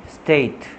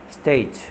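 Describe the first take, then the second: Both takes have the same delivery.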